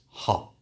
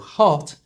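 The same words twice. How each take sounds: First: The final T sound is left out. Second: The final T sound is clearly pronounced.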